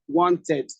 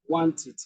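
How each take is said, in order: First: The ending has a full 'eh' vowel. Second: The ending has a weak, reduced vowel. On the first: The speaker calls it wrong. "this is eh... so you say wanted" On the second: The speaker calls it right. "No, it's rather wanted"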